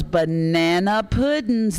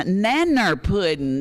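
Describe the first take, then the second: First: Said in the usual way. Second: "nanner" said slowly, first syllable of banana dropped; folksy pronunciation. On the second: Real, not acted. Auctioneer relishing a dessert's homely name, folksy "nanner". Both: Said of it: "That's even better".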